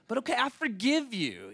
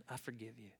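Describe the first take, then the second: First: High, swooping grudging pardon; acted fed-up concession; exasperated forgiveness. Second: Very soft, low acted pardon; hushed, subdued concession; quiet forgiveness. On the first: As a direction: give in with pitched-up exasperation. Second time, exasperated forgiveness. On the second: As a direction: let it go quietly. First time forgiving the thief.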